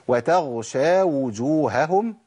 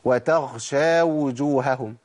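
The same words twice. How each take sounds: First: The gh sound is voiced, without escaping breath. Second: The gh sound is breathy, close to kh. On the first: The speaker calls it right. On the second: The speaker calls it wrong.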